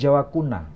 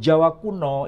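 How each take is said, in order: First: The last word ends in an 'a' sound. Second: The last word ends in an 'o' sound. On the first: The speaker calls it right. "Seharusnya yang benar" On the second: The speaker calls it wrong. "sebetulnya kurang tepat"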